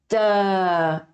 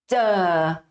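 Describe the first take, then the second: First: The consonant starts with a brief closure, then releases. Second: The consonant starts with a brief closure, then releases.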